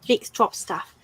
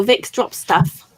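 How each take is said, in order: First: Said in the usual way. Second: Slow and careful. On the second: Shown as a demonstration. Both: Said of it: "Is that what it's called, Bill?".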